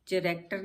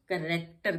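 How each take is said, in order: First: चरैक्टर with a ch sound at the start; चरैक्टर as char-ac-ter; wrong pronunciation. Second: करेक्टर with a hard k sound, silent h; करेक्टर as kar-ek-ter; correct pronunciation. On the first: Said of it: "चरैक्टर नहीं पढ़ते इसको". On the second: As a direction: say करेक्टर starting with k, not ch. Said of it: "करेक्टर कहलाता है". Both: Shown as a demonstration.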